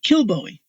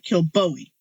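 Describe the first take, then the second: First: The stress is on the first syllable. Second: The stress is on the second syllable. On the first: The speaker calls it right. "it's pronounced Kilbowie" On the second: The speaker calls it wrong. "not Kilbowie"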